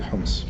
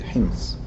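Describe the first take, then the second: First: The vowel sounds like 'o'. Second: The vowel sounds like 'i'. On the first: This is the colloquial or English form. "in English and in uh, colloquial Arabic we say Homs" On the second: This is the formal Standard Arabic form. "when we pronounce it in Fusha we must say Hims"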